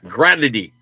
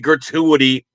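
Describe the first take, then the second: First: The word is squeezed into three syllables. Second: The word is said with four syllables.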